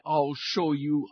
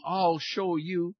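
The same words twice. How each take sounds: First: Slow, drawn-out threat. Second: Even slower, more stretched-out menace; slower menacing threat. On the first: Wind vowing to beat the sun, slow threat. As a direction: stretch each word like a building storm. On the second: Wind repeating its vow to the sun, slower menace. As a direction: drag it out like a rising gale. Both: A narrator's reading. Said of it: "roared the wind".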